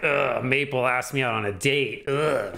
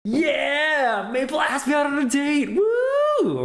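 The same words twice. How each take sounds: First: Dismayed groan of complaint; negative inflection. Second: High-pitched cheering celebration; excited, happy. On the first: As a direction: groan it as if it's bad news. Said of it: "it might be automatically assumed as negative". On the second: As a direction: cheer it, ending in a whoop. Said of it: "is the excited version of this". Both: Shown as a demonstration.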